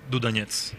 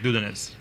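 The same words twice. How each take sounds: First: The stress falls on a later syllable. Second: The stress falls on the first syllable. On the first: "in Russian, it is" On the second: "the Americans tend to make the stress on the first vowel, like"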